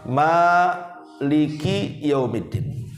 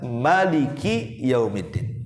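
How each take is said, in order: First: The first vowel after m is held long. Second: The first vowel after m is kept short.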